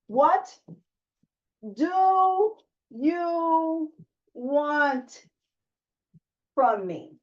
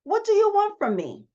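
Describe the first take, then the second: First: What do you want from me asked slowly, a pause after each word. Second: Raised question. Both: Shown as a demonstration. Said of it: "You gotta ask yourself that question".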